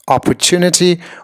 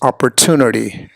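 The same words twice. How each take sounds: First: It is said in a non-American accent. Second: It is said in an American accent. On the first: "I personally much prefer uh, the former" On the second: "the American permutation"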